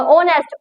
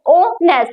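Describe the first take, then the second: First: Said in the usual way. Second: "ऑनेस्ट" split into o, then nest; syllable by syllable. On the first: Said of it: "थोड़ा सा". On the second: Shown as a demonstration. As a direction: say "ऑनेस्ट" in two separate beats. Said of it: "बोलने में थोड़ा सा time लगे". ("ऑनेस्ट" दो हिस्सों में तोड़कर)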